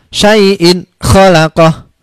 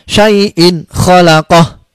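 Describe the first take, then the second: Both takes have the same delivery.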